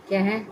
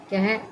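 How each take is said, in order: Both takes have the same delivery.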